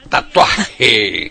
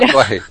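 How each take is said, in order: First: The j is pronounced with a strong, harsh friction. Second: The j is pronounced with a soft, light friction. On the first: The speaker calls it wrong. "por qué tus jotas así?" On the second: The speaker calls it right. "Tatuaje suena más suave, más bonito, más romántico"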